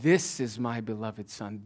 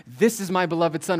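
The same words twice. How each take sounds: First: THIS singled out, slow and lower; measured, corrective weight on THIS; stress on THIS. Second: Mildly raised voice of God; God's announcement, lightly voiced; crying out. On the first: Retold or imitated. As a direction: slowly set THIS apart from the others. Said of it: "and God says". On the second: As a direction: proclaim it with a little extra force. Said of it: "the voice of God cry out".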